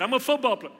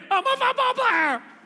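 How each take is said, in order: First: It is said at a normal volume. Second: It is screamed very loudly.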